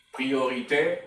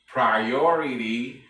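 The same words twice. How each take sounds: First: Priorité said the French way, ending in é; French word. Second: Priority said in English, slow and louder; English word. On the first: Teacher giving the French form first, in French. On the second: Teacher giving the English equivalent, slowly. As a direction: draw out Priority with English vowels. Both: Shown as a demonstration.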